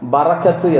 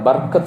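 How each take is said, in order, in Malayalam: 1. r നും k നും ഇടയിൽ ഒരു ചെറിയ a സ്വരാക്ഷരം വരുന്നു. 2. r നേരിട്ട് k യിലേക്ക് ചേരുന്നു, ഇടയിൽ സ്വരാക്ഷരമില്ല. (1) "ശരിയായ അറബി ഭാഷയിലെ പ്രയോഗം ബറക്കത്ത് എന്നാണ്" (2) "ബർക്കത്ത് റോഹിന് സുക്കൂന് നൽകിയിട്ടാണ് പറയാറുള്ളത്"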